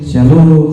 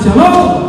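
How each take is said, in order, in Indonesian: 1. Sapaan itu diucapkan dengan cara yang datar dan membosankan. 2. Sapaan itu diucapkan dengan intonasi yang hidup dan bervariasi. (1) "itu tidak menarik" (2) "intonasinya menarik"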